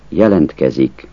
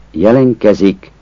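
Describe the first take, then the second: First: Jelentkezik with the t sounded; standard jelentkezik. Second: Jelenkezik with the t dropped after n; casual jelenkezik. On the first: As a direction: say jelentkezik with a clear t. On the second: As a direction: say jelenkezik without t. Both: Shown as a demonstration. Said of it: "Azt a kiejtés változatot".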